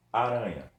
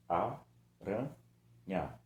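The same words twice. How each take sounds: First: Said in the usual way. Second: "Aranha" very slowly as a, ra, nha; syllable by syllable. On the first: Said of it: "É uma palavra". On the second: Shown as a demonstration. Teacher proving it has three syllables, "Aranha" in three beats. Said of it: "Tenho três sílabas dela".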